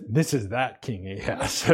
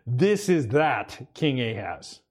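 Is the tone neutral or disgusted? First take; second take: disgusted; neutral. First: It is said with disgust in the tone. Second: It is read in a plain, neutral tone.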